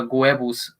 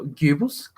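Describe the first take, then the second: First: "Goebbels" said as GWEB-ulz; name pronunciation attempt. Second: "Goebbels" said as GYOO-bulz, questioning; alternative pronunciation. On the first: Commentator trying the player's name "Goebbels" as GWEB-ulz, first attempt. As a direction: say "Goebbels" with a gw start and short e. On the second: Commentator unsure of the name "Goebbels", trying GYOO-bulz. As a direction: say "Goebbels" with a long oo, rising. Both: Real, not acted. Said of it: "Whichever way you want to pronounce it".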